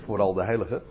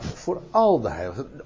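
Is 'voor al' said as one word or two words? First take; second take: one word; two words. First: It is run together as one word, vooral. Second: It is said as two separate words. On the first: It means especially the saints. The speaker calls it wrong. "Niet voor al de heiligen" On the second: It means for all the saints, regardless of who. The speaker calls it right. "dat zijn twee woorden"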